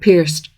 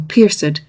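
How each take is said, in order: First: The ending is said with no vowel sound. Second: The ending is said as a separate syllable. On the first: The speaker calls it wrong. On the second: The speaker calls it right. "should be pronounced as a syllable"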